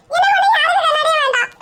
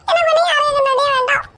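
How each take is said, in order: First: High, whiny fake sob, with ஒண்ணு stressed; hammed-up tearful whine with a laugh in it; mock crying whine. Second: High, whiny fake sob, with எனக்கு stressed; hammed-up tearful whine, slightly calmer; mock crying whine. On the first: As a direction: whimper it like a sulking child, leaning on ஒண்ணு. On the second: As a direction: whimper it again, leaning on எனக்கு. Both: Sulking over lost sunglasses.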